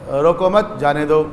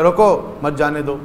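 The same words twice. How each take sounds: First: "روکو مت" as one unit, pause, then "جانے دو"; pause after مت. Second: "روکو", pause, then "مت جانے دو" run together; pause after روکو. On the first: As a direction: join مت to روکو, break before جانے. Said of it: "وقف یہاں لگائیں گے تو معنی کچھ ہو جائے گا". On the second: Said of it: "وقف وہاں لگائیں گے". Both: Shown as a demonstration.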